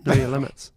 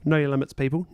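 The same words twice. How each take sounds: First: "Know your limits" said again, louder and more emphatic; louder mock-stern repeat; repeated warning. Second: Said in the usual way. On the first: Shown as a demonstration. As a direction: hammer the advice home a second time, mock-stern.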